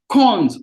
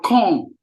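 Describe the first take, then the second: First: The word ends with an audible S sound. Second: The word ends without any S sound.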